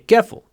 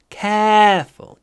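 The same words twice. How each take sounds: First: The first vowel is short and clipped. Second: The first vowel is drawn out long. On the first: The speaker calls it wrong. "Не careful" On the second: The speaker calls it right. "Тянем"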